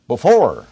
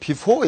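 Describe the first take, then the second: First: The first syllable is weakened and reduced. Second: The first syllable is said full and strong. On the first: The speaker calls it right. "이게 이렇게 약해지는 거예요" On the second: The speaker calls it wrong. "미국 사람들 before 이래 안 합니다"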